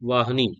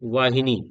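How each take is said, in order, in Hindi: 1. h और n के बीच कोई स्वर सुनाई नहीं देता। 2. h और n के बीच 'i' स्वर सुनाई देता है। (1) "ये गलत है।" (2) "सही क्या है?"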